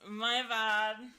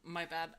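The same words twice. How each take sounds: First: It is said in the speaker's natural voice. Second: It is said in the hunk character's voice.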